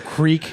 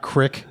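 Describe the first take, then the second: First: The vowel is a long 'ee' sound. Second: The vowel is a short 'ih' sound. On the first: The speaker calls it right. "It's also creek" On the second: The speaker calls it wrong. "not crick"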